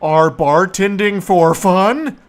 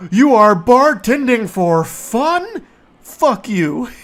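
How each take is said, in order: First: Mock disbelief. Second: High, loud, slow disbelieving whine; incredulous mocking. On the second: Mocking the coworker's claim of bartending for fun, loud slow sneer. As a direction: drag it out in mock outrage.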